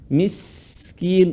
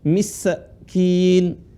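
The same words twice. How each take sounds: First: The s sound flows on with continuous air. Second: The s sound is stopped short without flowing air. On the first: The speaker calls it right. "Sinnya dialirin. Miskin" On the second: The speaker calls it wrong. "bukan miskin"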